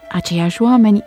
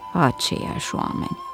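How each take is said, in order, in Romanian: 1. Se spune pe un ton entuziast, vioi. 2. Se mormăie pe un ton obosit, sătul. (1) "optimistul s-a entuziasmat" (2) "pesimistul a mârâit singur expresia care îl caracteriza"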